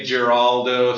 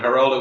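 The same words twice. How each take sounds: First: The name is said with a Canadian pronunciation. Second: The name is said with a Spanish pronunciation. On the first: "Canadians will say Geraldo" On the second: "Geraldo would be the Spanish pronunciation"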